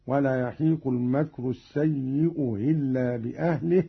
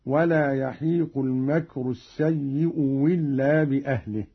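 First: السيء إلا with the hamza of إلا eased, no glottal stop; softened second hamza. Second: السيء إلا said "as-sayyi'u willa", with a w; hamza turned to waw. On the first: Teacher showing the same rule, hamza of إلا softened. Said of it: "وهكذا". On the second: Teacher showing the second option, إلا begun with waw. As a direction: begin إلا with a w in place of hamza. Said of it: "أو إبدالها واوا". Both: Shown as a demonstration.

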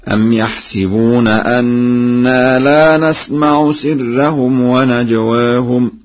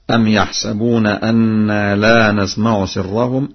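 First: Slow melodic recitation, "يحسبون" with sin on short i; Warsh reading. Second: Said in the usual way. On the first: Shown as a demonstration. Teacher demonstrates Warsh's reading, chanting "يحسبون" as yahsibuna. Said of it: "بكسر السين هكذا".

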